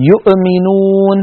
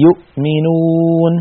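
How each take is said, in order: First: يؤمنون with the hamza pressed hard so it bounces; slow, punch the hamza in يؤمنون until it echoes; exaggerated hamza in يؤمنون; bouncing hamza. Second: يؤمنون with an easy, light hamza, slowly; slow model reading of يؤمنون; smooth correct hamza. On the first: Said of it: "الضغط الزائد على الهمزة بحيث تتقلقل". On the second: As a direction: say يؤمنون gently, no push on the hamza. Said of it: "لا بد من نطقها بسهولة ويسر". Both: Shown as a demonstration.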